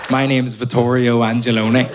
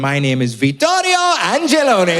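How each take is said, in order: First: The name is said in a Belfast accent. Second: The name is said in an Italian accent.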